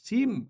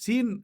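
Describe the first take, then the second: First: The word ends with an m sound. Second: The word ends with an n sound. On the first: The speaker calls it right. "সিম মিম এভাবে বলবেন।" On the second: The speaker calls it wrong. "সিন এটা বললে হবে না।"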